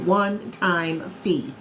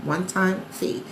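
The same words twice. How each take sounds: First: Very slow, weighted one-time fee; drawn-out "One-time fee" so every word lands; emphatic. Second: Said in the usual way. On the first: Shown as a demonstration. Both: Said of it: "repeats the fee for emphasis".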